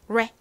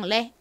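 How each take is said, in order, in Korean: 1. 이 음절은 영어식 말린 r 소리입니다. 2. 이 음절은 한국식 튀는 r 소리입니다. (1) "실제 원어 발음으로는 레" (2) "한국식으로는 그냥 레 이렇게 쓰지만"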